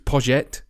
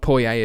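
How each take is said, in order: First: The name sounds like courgette with a P. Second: The name does not sound like courgette. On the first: The speaker calls it right. "It's it's Poget" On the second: The speaker calls it wrong. "It's not Poyet at all"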